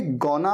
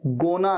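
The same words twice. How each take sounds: First: "गोना" with an open aw vowel; correct gonna. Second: "गोना" with a closed long o; mispronounced gonna. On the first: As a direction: say "गोना" as gawna. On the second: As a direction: say "गोना" as goh-na. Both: Shown as a demonstration. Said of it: "गोना नहीं".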